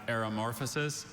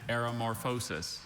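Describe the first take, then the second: First: "aeromorphosis" with stress on MOR, ending -fuh-sis; first pronunciation. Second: "aeromorphosis" with a long O, ending -FOH-sis; alternate pronunciation. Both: Shown as a demonstration. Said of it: "Are there any alternate pronunciations".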